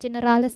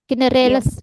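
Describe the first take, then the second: First: The final syllable has an i vowel. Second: The final syllable has an e vowel. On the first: The speaker calls it wrong. "bukan generalis" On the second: The speaker calls it right. "Generales, bukan generalis"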